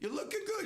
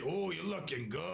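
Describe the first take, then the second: First: It sounds plain, friendly and innocent. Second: It sounds suggestive and leering, with a growl.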